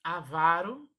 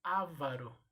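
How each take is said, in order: First: "Avaro" said a-VA-ro, loud; stressed VA in "Avaro"; stress on middle syllable. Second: "avaro" said Á-varo; stressed first A in "avaro"; wrong-form demo. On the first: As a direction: punch VA in "Avaro". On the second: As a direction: hit the first syllable of "avaro". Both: Shown as a demonstration. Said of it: "e não".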